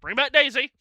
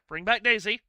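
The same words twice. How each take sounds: First: It is said in an angry, outraged voice. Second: It is said in a plain, calm voice.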